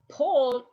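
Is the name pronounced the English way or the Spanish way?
English. The vowels are pronounced English-style. The speaker calls it wrong. "is not Paul"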